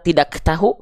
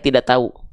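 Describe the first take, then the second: First: The k and h sounds are fully pronounced. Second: The k and h sounds are dropped. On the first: "apakah kita bilang tidak tahu? Enggak" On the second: "huruf K-nya hilang, huruf H-nya hilang"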